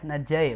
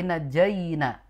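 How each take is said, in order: First: The word ends early, without its last syllable. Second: The word is said in full with its last syllable. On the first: The speaker calls it wrong. "Jadi bukan e ya, najai bukan" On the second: The speaker calls it right. "tapi najaina"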